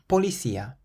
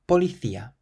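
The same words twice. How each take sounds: First: The c is sounded like an s. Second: The c is sounded like a th. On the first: "you can pronounce it either like an S" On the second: "or a T H"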